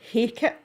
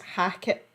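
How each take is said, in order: First: The first vowel sounds like the one in cake. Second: The first vowel sounds like the one in cat.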